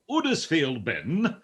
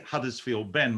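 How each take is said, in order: First: It is said in a Yorkshire accent. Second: It is said in a neutral accent. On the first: "my mind immediately wants to say" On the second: "without the accent"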